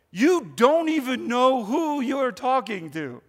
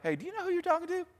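First: Slow, kind invitation; gentle, not arrogant. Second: Fast, much higher, haughty put-down; mock a snooty rebuke; mock arrogant. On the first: Retold or imitated. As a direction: say it slowly and warmly, no edge. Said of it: "that's not the tone he's saying it". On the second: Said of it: "That sounds kind of arrogant".

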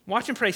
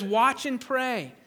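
First: Said in the usual way. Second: "Watch and pray" drawn out slowly, weight on "Watch"; slow down and press "Watch"; slow urgent command. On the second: Shown as a demonstration.

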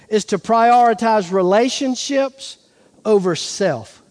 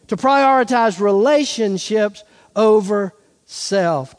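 First: Said in the usual way. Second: "relationships over self" weighted and spaced out; emphatic repeat. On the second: Shown as a demonstration.

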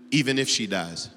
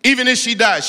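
First: Said in the usual way. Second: Loud, higher repeat of "Even if she dies"; loud cry. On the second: Acted. Preacher repeating the prayer line, loud and high.

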